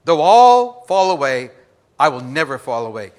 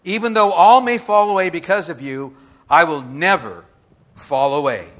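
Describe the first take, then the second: First: Mock boast. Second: Peter's boast. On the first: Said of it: "you just gotta be careful what you say". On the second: Acted. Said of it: "Peter answers and says".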